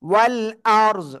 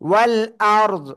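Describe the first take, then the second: The two takes are said the same way.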